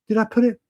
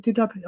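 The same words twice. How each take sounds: First: Said in the usual way. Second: Much softer, muttered to himself; fading mutter. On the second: Real, not acted. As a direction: trail off into a murmur while searching.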